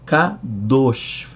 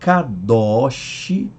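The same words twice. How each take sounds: First: The last vowel is said closed. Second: The last vowel is said open.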